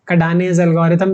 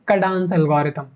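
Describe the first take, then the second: First: The name ends in two syllables, 'dah-nez'. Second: The name ends in one syllable, 'dahns'. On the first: "कडानेज algorithm भी बोल सकते हो" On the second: "इसी को हम बोलते हैं कडान्स एल्गोरिथम"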